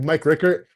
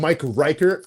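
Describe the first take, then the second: First: The surname is pronounced in its usual way. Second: The surname is pronounced with a deliberately altered vowel. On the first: This is how the player's name is really said. The speaker calls it right. "instead of saying like Mike Rickert" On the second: The name is butchered on purpose to annoy the player. The speaker calls it wrong. "we would call him Mike Reichert on purpose"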